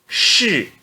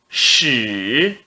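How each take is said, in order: First: The pitch falls sharply from high. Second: The pitch dips low, then rises. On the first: "E no quarto tom" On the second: "No terceiro tom"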